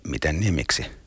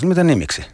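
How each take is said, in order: First: The question sounds evasive, dodging the matter. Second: The question sounds genuinely puzzled and unknowing. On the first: The speaker is deliberately avoiding the question. "Välttely voisi olla" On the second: The speaker truly does not know the answer. "Kun taas tiedostamaton"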